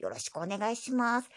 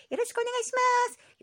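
First: Said in the usual way. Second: High squeaky voice. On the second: Acted. Two voices sign off.

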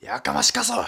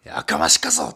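First: High, loud Nagasaki-dialect snap of 「やかましかそ！」; Nagasaki dialect retort. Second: Lower, louder Nagasaki-dialect growl of 「やかましかそ！」; Nagasaki dialect retort. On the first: Comedian showing his failed Nagasaki-dialect tsukkomi, high and loud. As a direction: bark it in thick Nagasaki dialect. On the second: Comedian repeating his Nagasaki-dialect tsukkomi, low and loud. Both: Retold or imitated. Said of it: "急に長崎弁使って大失敗したな".

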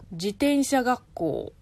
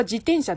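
First: Slow 自転車学校 with the accent shifted; accent demo. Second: 自転車 with its own accent drop shown; accent demo. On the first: Host showing how 学校 changes the accent, slow. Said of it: "変わるよね、アクセントが". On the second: Host showing the true accent of 自転車, careful. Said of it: "本当は". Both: Shown as a demonstration.

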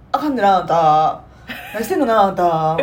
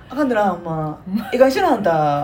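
First: Mild Osaka auntie scolding; loud nosy osaka auntie. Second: Loud nosy osaka auntie. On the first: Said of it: "頭揺さぶって目つぶりながら". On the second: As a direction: tease gently like a chatty auntie. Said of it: "ちょっと柔らかい感じで". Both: Retold or imitated.

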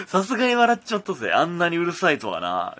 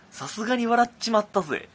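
First: Louder mock gangster read; lightly voiced smug thug; tough-guy letter voice. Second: High, gruff gangster read; tough-guy letter voice. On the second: Retold or imitated. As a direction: read it like a cocky thug. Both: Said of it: "こんな口調の脅迫状". (悪役っぽい口調で)

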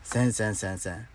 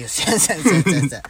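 First: せんせんせんせん repeated softer, fading and rising at the end; softer afterthought denial; trailing refusal. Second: Rapid firm せんせんせんせんせん, each せん clipped and falling; insistent no-way denial; emphatic refusal. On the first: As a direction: let the repeated せん die away under the breath. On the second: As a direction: shut the idea down fast with repeated せん. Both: Real, not acted. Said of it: "絶対せんよ".

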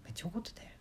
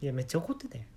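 First: めっちゃ怒ってたよ said much softer, almost under the breath; hushed repeat. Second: Said in the usual way. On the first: Shown as a demonstration. Repeating the remark to oneself, hushed. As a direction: murmur めっちゃ怒ってたよ to yourself.

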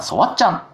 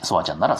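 First: Short, high mock shout; restrained example of yelling a name; demonstrated name shout. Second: Said in the usual way. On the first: Shown as a demonstration. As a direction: call out your own name as a demo. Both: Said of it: "自分の名前を大声で叫ぶと".

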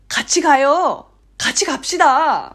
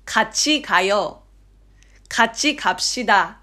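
First: Strong emphatic nudge. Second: Even, careful pronunciation-drill delivery; textbook flat. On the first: Inviting someone along in Korean, insistently coaxing. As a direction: press the invitation, stretching the last syllable. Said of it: "念押しのニュアンス強めじゃないですか". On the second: Demonstrating textbook audio, flat and stiff. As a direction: read it out neatly with no coaxing. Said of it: "平坦になりがちなんですよね". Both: Shown as a demonstration.

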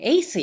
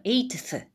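First: Eighth said as "eis", without the t sound; the mistaken eighth, with the t dropped; wrong eighth. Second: Eighth said with a clear t before the th, "eit-th"; the right eighth, with the t sounded; correct eighth. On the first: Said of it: "eighthやと間違ってたんやけど". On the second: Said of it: "eighthだそうです". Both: Shown as a demonstration.

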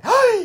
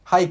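First: High, loud はい sucked in; inhaled speech. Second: Said in the usual way. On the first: Shown as a demonstration. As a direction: say はい while breathing in. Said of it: "息吸いながら喋る方法って". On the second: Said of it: "って言わないよね".

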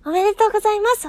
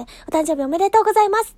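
First: Higher, louder, fast "おめでとうございます"; cheerful congratulations. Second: Louder birthday wish despite the voice; "おめでとうございます" said with the voice she apologises for; rough voice. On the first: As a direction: burst out with the wish. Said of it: "ちょっとこんな声になっちゃうんですけど". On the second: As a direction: congratulate through a strained voice. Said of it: "ちょっとこんな声で". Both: Real, not acted.

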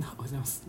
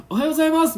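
First: Soft, downcast mumbled hello; mumbled shy greeting. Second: Much higher, louder, bright forced hello; bold eye-contact greeting. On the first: 鉢合わせした隣人に、うつむいて小さく挨拶する. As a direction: greet timidly with head bowed, much softer. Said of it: "ちょっとうつむき加減で". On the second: マンションの女性が目を見てはっきり挨拶する. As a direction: look them in the eye and say it loud. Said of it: "すんごい目を見てきて". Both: Retold or imitated.

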